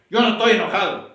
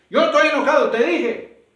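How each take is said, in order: First: Loud, defensive mock denial that he's angry; mock angry protest. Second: Much higher and louder, shouting that he's not angry; hammed-up furious shout; furious denial. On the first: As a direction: snap back that you're not angry, louder. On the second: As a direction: blow up while insisting you're calm. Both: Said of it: "por qué me hablas con tanto gozo en tu voz".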